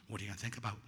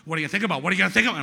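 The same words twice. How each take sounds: First: Low, soft nagging thought; quiet inner voice. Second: Loud nagging thought, climbing higher; noisy inner voice. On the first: Mind intruding on meditation, quiet inner voice. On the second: Mind intruding on meditation, loud nagging. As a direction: badger insistently, getting louder and higher. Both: Retold or imitated.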